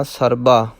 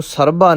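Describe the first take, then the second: First: ਸਰਬਾ with a light plain b; soft b. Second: ਸਰਬਾ said heavy, as if with bh; weight the second syllable of ਸਰਬਾ like bh; wrong heavy b. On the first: Teacher corrects learners, ਸਰਬਾ with soft b. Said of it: "ਪੋਲਾ ਰੱਖਣਾ ਹੈ". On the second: Teacher mimics the error, ਸਰਬਾ with heavy bh. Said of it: "ਇਹਨੂੰ ਸਰਬਾ ਨਹੀਂ ਕਹਿਣਾ". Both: Shown as a demonstration.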